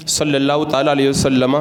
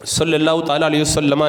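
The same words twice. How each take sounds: The two takes are said the same way.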